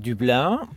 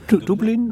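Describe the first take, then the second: First: It is said with a French accent. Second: It is said with an Irish accent. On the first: "unser Franzose" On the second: "wie die Iren sagen"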